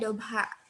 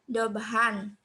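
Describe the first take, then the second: First: The word ends with a lengthened a vowel. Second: The word ends with an n sound. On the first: The speaker calls it right. "tapi dibacanya dobha gitu" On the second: The speaker calls it wrong. "bukan dibaca seperti itu"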